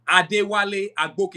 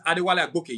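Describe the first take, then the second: First: Name said slowly in African accent; slow, proud African accent, each syllable given room. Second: Said in the usual way. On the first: Shown as a demonstration. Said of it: "You hear the accent? I'm not hiding it". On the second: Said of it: "Yes, Adewale Agboke. You hear the accent?".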